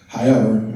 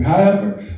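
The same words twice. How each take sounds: First: Said in the usual way. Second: "However" lifted high and stressed; emphatic however. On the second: Shown as a demonstration. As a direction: throw "However" up high to restart.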